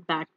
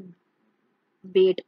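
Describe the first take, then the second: First: The vowel is an open 'a' sound. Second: The vowel is a mid 'e' sound. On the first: The speaker calls it right. "उसे हम बैट पढ़ते हैं" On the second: The speaker calls it wrong. "हम ऐसा नहीं होगा कि B A T बैट लिखेंगे तो हम उसे बेट पढ़ेंगे"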